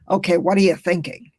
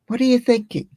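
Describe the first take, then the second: First: It sounds impatient and critical. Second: It sounds open and inviting.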